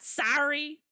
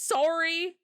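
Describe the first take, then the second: First: Sorry with an open "ah" vowel, like "sah-ree"; American sorry. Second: Sorry with an O vowel, like "sore-ee"; Canadian sorry. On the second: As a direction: say sorry rounding the first vowel as O. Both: Shown as a demonstration. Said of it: "It's an O".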